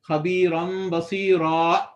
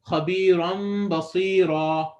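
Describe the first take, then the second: First: The final vowel is cut off by a throat catch. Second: The final vowel flows out with no stop. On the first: The speaker calls it wrong. "your throat is partially blocking the sound. You're actually creating a hamza at the end" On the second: The speaker calls it right. "There's no stoppage. Ra, it's just flowing out"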